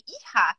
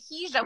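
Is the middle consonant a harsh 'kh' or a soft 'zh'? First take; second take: harsh kh; soft zh. First: The middle consonant is a harsh throaty 'kh'. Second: The middle consonant is a soft buzzing 'zh'. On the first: This is the Spanish pronunciation. "you would say Hija" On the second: This is the Ladino pronunciation. "you wouldn't say Hija with the"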